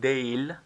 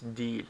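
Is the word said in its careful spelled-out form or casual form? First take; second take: spelled-out; casual. First: It is said carefully, exactly as spelled. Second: It is said in its everyday spoken form. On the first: The speaker calls it wrong. "It's written değil, but no one pronounces like that" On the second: The speaker calls it right. "Everyone says değil"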